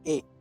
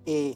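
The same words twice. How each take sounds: First: It is said as a long 'ay' vowel. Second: It is said as a short 'a' vowel. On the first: This is the letter's name. "इसका नाम है ए" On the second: This is the letter's sound. "लेकिन इसकी आवाज है ए, जैसे एप्पल में"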